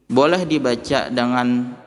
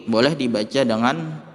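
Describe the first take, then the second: Both takes have the same delivery.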